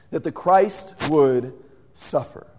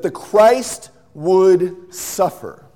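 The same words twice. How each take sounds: First: Said in the usual way. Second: "the Christ would suffer" drawn out very slowly, louder; slow stress. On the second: Shown as a demonstration. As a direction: lean on every word.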